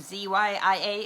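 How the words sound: The letter Z is said the American way.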